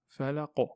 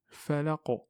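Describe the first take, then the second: No difference in how they are said.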